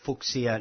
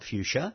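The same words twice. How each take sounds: First: It is said close to the original surname. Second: It is said the usual anglicized way. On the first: It follows the commemorative naming rule. The speaker calls it right. "you've got to say Fuchsia" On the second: It ignores the commemorative naming rule. The speaker calls it wrong. "not Fuchsia"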